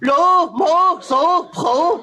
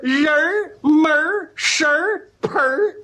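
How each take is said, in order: First: The words are said with a tongue-tied lisp. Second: The words are said clearly with crisp erhua.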